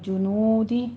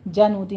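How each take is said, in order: First: The first vowel is a rounded u. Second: The first vowel is an open a. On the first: The speaker calls it right. "होंठों को गोल कीजिए" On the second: The speaker calls it wrong. "जनूदी नहीं"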